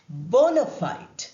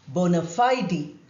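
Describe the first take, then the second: First: The final e of fide is silent. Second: The final e of fide is pronounced.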